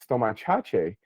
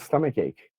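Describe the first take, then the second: First: The word is sounded out letter by letter. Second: The word has its usual English pronunciation. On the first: The speaker calls it wrong. "me as an eight-year-old reading it" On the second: The speaker calls it right. "the word was stomach ache"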